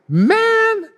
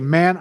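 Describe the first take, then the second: First: It is said with exasperated disbelief. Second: It is said plainly, without strong feeling.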